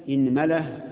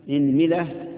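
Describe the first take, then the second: No difference in how they are said.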